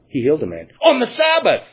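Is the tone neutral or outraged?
outraged. It is said in an indignant, scandalized tone. The healing is treated as breaking the law. The speaker calls it right. "They would say, ... As if this wonderful work of mercy was a violation of God's law"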